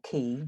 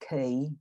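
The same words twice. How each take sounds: First: The vowel stays steady, a plain monophthong. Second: The vowel glides, said as a diphthong.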